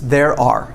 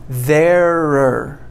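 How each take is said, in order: First: It is said as two separate full words. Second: It is run together into one contracted form. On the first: "when we write, we always separate these" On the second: "most people will say there're. They contract them"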